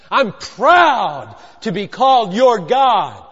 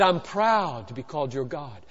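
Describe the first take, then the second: First: Slow, weighty stress on "proud"; slow, forceful avowal, punching "proud"; emphatic declaration. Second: Low, soft statement of being proud; hushed, low-pitched avowal; quiet declaration. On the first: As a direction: stretch out "proud" and drive each word home. Repeats it slowly with force. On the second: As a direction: say it gently, well under full voice. First of two contrasted takes. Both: Acted.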